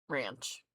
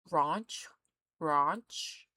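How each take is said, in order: First: "Ranch" with a short a, falling; matter-of-fact American "Ranch". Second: "Ranch" with a long ah vowel; questioning, drawn-out rahnch for "Ranch"; British "ranch". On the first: Shown as a demonstration. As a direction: say "Ranch" low, with the American vowel. Own American pronunciation after the British one. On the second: Retold or imitated. Mimics the British pronunciation.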